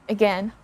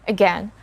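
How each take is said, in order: The two takes are said the same way.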